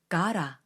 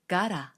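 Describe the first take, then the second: The two takes are said the same way.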